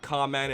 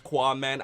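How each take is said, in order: First: The name begins with a plain k sound. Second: The name begins with a kw sound. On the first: The speaker calls it wrong. "It's not Kaman" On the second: The speaker calls it right. "It's Quaman"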